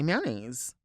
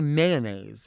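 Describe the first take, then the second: First: The word is said with fewer sounds. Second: The word is said with extra sounds. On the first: "They just say mayonnaise" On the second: "I'm pronouncing it too many letters"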